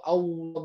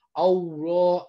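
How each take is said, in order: First: Allah with thick lam from the raised tongue root, lips still; correct Allah. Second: Allah said with pouting, rounded lips; wrong rounded-lip Allah. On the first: Teacher shows students the correct thick lam in Allah. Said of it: "bukan monyongnya bibir". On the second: Teacher shows students the pouting mistake on Allah. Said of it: "jadi bukan monyong". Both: Shown as a demonstration.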